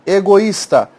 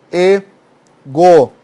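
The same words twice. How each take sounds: First: Said in the usual way. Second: "e-go-is-ta" spelled out very slowly, syllable by syllable; "e-go-is-ta" slow, each syllable apart. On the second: Shown as a demonstration. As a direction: stretch egoísta into its syllables.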